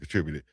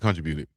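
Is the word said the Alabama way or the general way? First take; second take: general; Alabama. First: It is said the general, non-Alabama way. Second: It is said the Alabama way.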